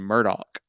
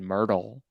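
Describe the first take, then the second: First: The name ends with a k sound. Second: The name ends with an l sound. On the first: The speaker calls it right. "instead of Murdoch" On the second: The speaker calls it wrong. "I was pronouncing it Murdahl"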